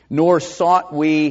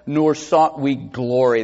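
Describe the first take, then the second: First: Slow, every word leaned on; weighty scripture reading. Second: Said in the usual way. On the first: Acted. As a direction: NOR pressed hard, then sought we drawn out. Slow emphatic scripture quote.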